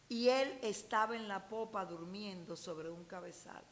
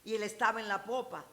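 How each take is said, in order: First: It is read with lively, expressive intonation. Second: It is read plainly, with little expressive intonation.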